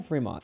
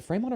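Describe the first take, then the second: First: Fremont with a long e, FREE-mont; alternative pronunciation. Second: Fremont with a long a, FRAY-mont; alternative pronunciation. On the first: Vlogger checking the city's name, Fremont said as FREE-mont. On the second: Vlogger checking the city's name, Fremont said as FRAY-mont. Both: Shown as a demonstration. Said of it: "was it Fremont or Fremont".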